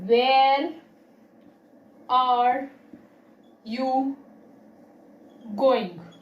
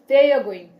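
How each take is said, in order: First: Every word is said fully at a plain pace. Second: The words are run together quickly and shortened. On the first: "the first one sounds simply" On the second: "The second one sounds fastly"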